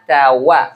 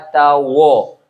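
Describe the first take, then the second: First: The last vowel is a clear, open 'a'. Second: The last vowel is a rounded 'o'. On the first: The speaker calls it right. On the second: The speaker calls it wrong.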